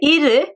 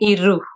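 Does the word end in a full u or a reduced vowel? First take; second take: reduced vowel; full u. First: The final vowel is a reduced, middle sound. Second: The final vowel is a full, clear u. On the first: The speaker calls it right. "It's like a middle sound" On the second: The speaker calls it wrong. "I'm not saying iru"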